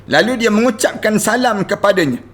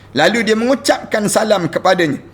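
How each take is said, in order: Both takes have the same delivery.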